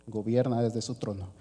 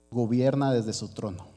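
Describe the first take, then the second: No difference in how they are said.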